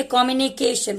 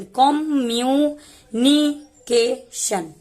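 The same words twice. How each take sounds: First: Said in the usual way. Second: "कम्युनिकेशन" broken into slow, separate syllables. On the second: Shown as a demonstration. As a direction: stretch out each small part of "कम्युनिकेशन" with pauses between. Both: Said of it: "इसको छोटा छोटा भाग में तोड़ के".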